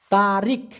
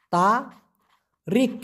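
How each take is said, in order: First: Said in the usual way. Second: তারিখ stretched very slowly, each sound held; drawn-out pronunciation. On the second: Shown as a demonstration. Teacher models Malay tarikh slowly for students. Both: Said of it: "টি এ আর আই কে".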